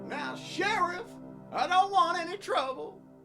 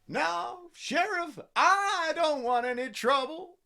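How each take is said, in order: First: The word I carries no special emphasis. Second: The word I is said with extra emphasis.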